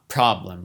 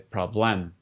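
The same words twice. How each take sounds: First: The stress is on the first syllable. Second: The stress is on the last syllable. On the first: The speaker calls it right. "we stress the first syllable" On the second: The speaker calls it wrong. "We don't say problem"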